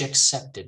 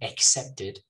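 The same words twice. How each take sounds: First: The first vowel is a reduced schwa. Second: The first vowel is a full vowel. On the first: The speaker calls it right. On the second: The speaker calls it wrong.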